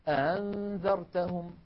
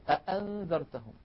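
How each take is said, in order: First: The second glottal stop is softened. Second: The second glottal stop is fully pronounced. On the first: "يسهلونها فيقولون" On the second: "بدلا من أن يقولوا"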